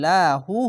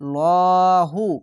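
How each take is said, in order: First: The L is pronounced light and thin. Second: The L is pronounced heavy and thick. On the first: A vowel mark sits below the preceding letter. "আর যদি নিচে আসে তাহলে লাহু হবে" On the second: A vowel mark sits above the preceding letter. "মোটা করে হয়ে যাবে"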